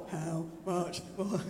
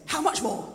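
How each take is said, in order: First: Low, slow and soft; half-hearted mock delivery. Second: Said in the usual way. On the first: Shown as a demonstration. Preacher showing congregation how not to say it, half-hearted. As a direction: drag it out limply, without energy. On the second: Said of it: "you're gonna say it with".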